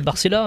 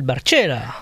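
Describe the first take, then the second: First: The name is said with plain French pronunciation. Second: The name is said with an Italian-style accent. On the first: The speaker calls it right. "Alors que c'est Barcella" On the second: The speaker calls it wrong. "qui l'appelle Barcella ... C'est mon accent italien"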